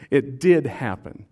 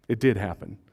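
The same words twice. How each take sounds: First: "did" punched and drawn out, slower and firmer; stress on DID. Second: Said in the usual way. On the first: Real, not acted. Preacher concedes the courtyard denial, stressing "did". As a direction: lean hard and long on the word "did". Repeats the admission with emphasis.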